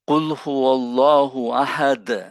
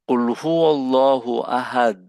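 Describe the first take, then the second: First: The final d ends with an echoing bounce. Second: The final d stops flat without a bounce. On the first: The speaker calls it right. "দাকে ফ্রিকশন করতে হবে।" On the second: The speaker calls it wrong. "এটা হলো না।"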